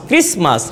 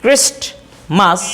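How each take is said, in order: First: ক্রিসমাস with no t heard; dropping the t. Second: Slow ক্রিস্টমাস with the t sounded; drawn-out ক্রিস্টমাস pressing the t. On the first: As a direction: say ক্রিসমাস, s sliding into m. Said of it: "টটা শোনা যায় না". (ট ছাড়া ক্রিসমাস) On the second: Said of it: "এই টটাকে উচ্চারণ করি". (ধীরে, ট সহ ক্রিস্টমাস) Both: Shown as a demonstration.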